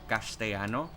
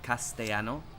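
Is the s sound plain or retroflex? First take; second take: retroflex; plain. First: The s sound is retroflex. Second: The s sound is plain. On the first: This is how it is said in Spain. "the S is slightly more retroflex. So like Castellano" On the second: This is how other dialects say it. "instead of Castellano"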